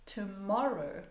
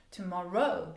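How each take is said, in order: First: "tomorrow" with the middle syllable stressed, falling; stress on MOR. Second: "tomorrow" with the last syllable ROW stressed. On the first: Teacher models the normal stress of "tomorrow". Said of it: "one word like tomorrow". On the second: Teacher shows the odd final stress on "tomorrow". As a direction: wrongly punch ROW in "tomorrow". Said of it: "That would sound real, a little bit weird". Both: Shown as a demonstration.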